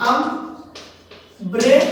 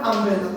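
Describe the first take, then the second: First: "umbrella" in three slow beats, আম, ব্রে, লা; long pauses between each syllable of "umbrella"; split into syllables. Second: Said in the usual way. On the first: Shown as a demonstration. Teacher showing a three-syllable word, "umbrella" split slowly. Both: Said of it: "তিনটে সিলেবলে কি word".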